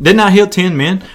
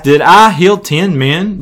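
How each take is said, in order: First: "Didn't I heal ten men?" with heal stressed, a little higher and rising. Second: "Did I heal ten men?" with I stressed and a slow rising question. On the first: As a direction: hit heal, pushing the question up. Jesus asks again, reworded. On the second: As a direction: lean on I, slowly, rising at the end. Jesus asks about the lepers. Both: Acted.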